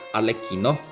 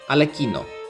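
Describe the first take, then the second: First: Pitch dips on the stressed syllable, then rises. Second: Pitch stays high, then falls after the stressed syllable. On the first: "in the stress syllable you go down and then go up" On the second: "you keep the pitch high up to the stress syllable and then go down"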